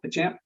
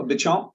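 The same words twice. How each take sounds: First: Béchamp with a flat American "a" and sounded p; alternative pronunciation. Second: Béchamp with an open "ah" and no clear final p; alternative pronunciation. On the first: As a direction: say Béchamp as "buh-SHAMP". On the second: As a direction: say Béchamp as "buh-CHOM". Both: Shown as a demonstration. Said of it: "if you will".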